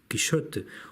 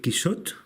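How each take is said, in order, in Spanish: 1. El nombre se dice con pronunciación inglesa. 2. El nombre se dice con pronunciación catalana. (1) "en inglés" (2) "como se dice en catalán"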